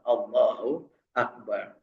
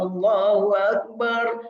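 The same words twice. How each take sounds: First: It is murmured quietly. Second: It is shouted loudly. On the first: It is a heartfelt response of faith. "bergumam dari hatinya" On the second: It is a call announced to everyone.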